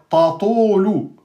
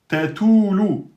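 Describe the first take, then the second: First: Both t sounds are emphatic, not thin. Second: Both t sounds are thin, not emphatic. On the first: "vous avez emphatisé le premier ta" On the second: "c'est faux, vous avez aminci le ta"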